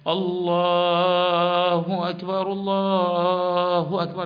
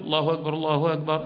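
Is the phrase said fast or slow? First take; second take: slow; fast. First: The phrase is said slowly and drawn out. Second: The phrase is said quickly without lingering. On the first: This is the call to prayer. "يعني تتمهل في الأذان" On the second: This is the call announcing the prayer is starting. "يعني الحذر تسرع"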